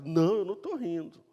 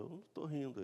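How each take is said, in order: First: Louder, higher mock protest; imitating someone caught out and protesting; insistent denial. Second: Softly voiced little denial; imitating an understated, hushed protest; quiet denial. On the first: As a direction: blurt out an emphatic denial. Sara insists when God contradicts her. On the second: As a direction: deny it in a small, soft voice. Sara denies laughing, acted exchange.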